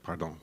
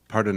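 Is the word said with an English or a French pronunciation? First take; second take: French; English. First: It is said with a French pronunciation. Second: It is said with a plain English pronunciation.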